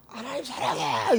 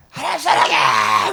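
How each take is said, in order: First: Retold car prayer. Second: Slow, high, loud crying cry of love to God; tearful shouted prayer. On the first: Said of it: "이거를 삼십 분을 했어요". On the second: Retold or imitated. Preacher reenacting her shouted prayer in the car, crying out. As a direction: shout it like a prayer breaking into tears. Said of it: "막 이러면서".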